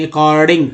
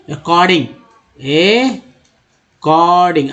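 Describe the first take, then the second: First: "according" said the wrong way; wrong reading. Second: "according" as kording, r dropped; right reading. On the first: ("according" गलत उच्चारण) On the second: ("according" सही उच्चारण, र घसीट के) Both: Shown as a demonstration. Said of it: "according नहीं".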